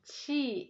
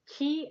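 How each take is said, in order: First: The word begins with a ch sound. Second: The word begins with a k sound. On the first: It reflects the Chinese tradition. "that pronounced as Qi, is actually reflecting Chinese modality" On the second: It reflects the Japanese tradition. "when you say Ki as Reiki, that's reflecting a Japanese"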